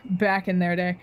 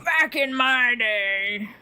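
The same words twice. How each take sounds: First: Said in the usual way. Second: Put-on drawn-out old-timer catchphrase; old person. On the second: Old people harking back to the past, drawn-out mock old-timer. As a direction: stretch it out slowly like an old person. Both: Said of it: "old people just go".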